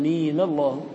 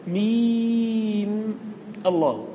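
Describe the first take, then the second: First: ميم linked into الله as mima-llah; joined with fatha. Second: ميم hugely prolonged on a high held note, cut off before الله; three vowelless letters. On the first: Teacher resolving two silent letters, joined recitation. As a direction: give ميم a final a and run straight into الله. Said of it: "بتحريك الأول بالفتح". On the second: Teacher showing the impossible cluster of silent letters, drawn-out recitation. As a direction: stretch ميم very long, end on bare m, then الله apart. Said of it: "ثلاث سواكن". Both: Shown as a demonstration.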